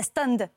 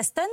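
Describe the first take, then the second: First: "stunned" said with a voiced ending and falling tune; English word stunned. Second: "stunt" said short with a clipped final t, rising; "stunt" as in stuntman, short vowel then hard t; English word stunt. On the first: Actress sets stunned against stunt, the ending voiced and falling. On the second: Actress sets stunt against stunned, saying the English word for stuntman. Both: Shown as a demonstration. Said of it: "il y a un petit détail dans les mots anglais".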